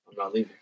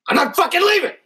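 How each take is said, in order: First: It is said calmly, without extra force. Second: It is said forcefully, with strong emphasis.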